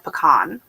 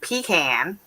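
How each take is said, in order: First: It uses the West Coast pronunciation. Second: It uses the Southern Florida pronunciation. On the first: "I grew up in the west, on on the West Coast, and we always said pecan" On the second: "I moved to Florida, and everyone down there is saying pecan"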